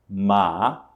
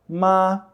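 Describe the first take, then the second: First: The pitch rises from middle to high. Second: The pitch stays level and high. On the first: "o segundo tom é o tom que sobe" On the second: "o primeiro tom, que é o tom plano"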